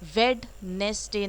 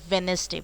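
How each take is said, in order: First: The first d sound is pronounced. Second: The first d sound is silent. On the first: The speaker calls it wrong. "वेडनेसडे नहीं बोला जाता है" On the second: The speaker calls it right. "वेनेसडे बोला जाता है"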